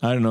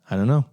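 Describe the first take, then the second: First: It sounds dismissive and annoying. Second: It sounds torn and conflicted.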